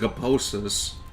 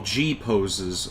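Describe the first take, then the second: First: It is read run together as one word. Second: The letter G is said apart from poses. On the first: The speaker calls it wrong. "that seems like a typo the way that you spelled that" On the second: The speaker calls it right. "if you separated G and poses"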